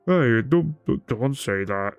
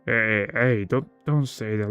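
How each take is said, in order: First: Louder start, dropping off; lightly voiced bear protesting; bear's voice, by mistake. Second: Lightly acted protest, near own voice; a mild, hesitant objection without the bear voice; corrected character voice. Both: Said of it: "I was confusing to the bear, uh, voice acting".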